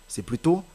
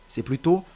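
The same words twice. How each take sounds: No difference in how they are said.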